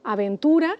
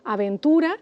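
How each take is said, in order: First: The stress falls on the syllable 'tu'. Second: The same.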